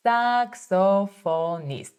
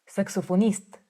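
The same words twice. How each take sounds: First: Saxophonist said slowly, syllable by syllable; slow demo. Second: Said in the usual way. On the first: Shown as a demonstration. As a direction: draw Saxophonist out for learners. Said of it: "teacher models word slowly". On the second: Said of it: "teacher models the word".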